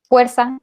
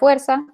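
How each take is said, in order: First: It begins with a 'j'-like sound. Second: It begins with an 'f' sound. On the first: "como de jarro" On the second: "en vez de"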